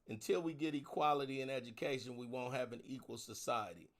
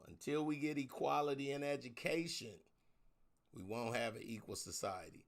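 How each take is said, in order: First: It is said at normal speed. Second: It is said slowly.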